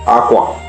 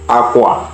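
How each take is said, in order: First: Said with the tone pattern meaning bed. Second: Said with the tone pattern meaning cloth. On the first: The word means bed. "aqua can mean bed" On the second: The word means cloth. "aqua can mean cloth"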